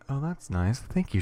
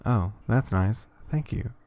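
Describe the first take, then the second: First: Bright, lifted thanks with pitch jumping up; excited. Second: Slow, dutiful thanks with no lift; unexcited. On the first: Daughter thanking mom, excited. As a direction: sound genuinely pleased. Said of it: "There is an excitement in her voice". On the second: Daughter thanking mom, unexcited. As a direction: say it politely but without any joy. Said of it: "There isn't any excitement in her voice". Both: Acted.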